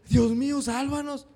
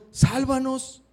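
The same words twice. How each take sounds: First: "Dios mío" muy agudo, "sálvanos" quebrado y suave; súplica a Dios. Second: "Sálvanos" agudo y fuerte; súplica a Jesús. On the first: Shown as a demonstration. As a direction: clama desesperado a Dios. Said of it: "en lugar de decir". (súplica aguda de auxilio) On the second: Retold or imitated. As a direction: ruega con urgencia. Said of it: "fueron con Jesús y le dijeron". (los discípulos suplican a Jesús en la tormenta)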